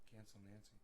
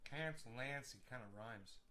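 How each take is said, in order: First: Much softer tasting the words Cancel Nancy; softly trying the rhyme. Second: Said in the usual way. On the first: Shown as a demonstration. Vlogger testing a rhyme to himself, hushed. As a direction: mutter it to yourself.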